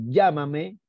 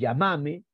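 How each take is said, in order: First: The stress is on the first syllable. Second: The stress is on the second syllable. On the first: This is how it is said in Peru. "en el Perú obviamente es esdrújula" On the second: This is how it is said in Argentina. "en Argentina es grave"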